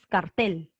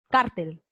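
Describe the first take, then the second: First: The stress is on the last syllable. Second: The stress is on the first syllable. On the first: "con fuerza de voz en la tel" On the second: "con fuerza de voz aquí, en la car"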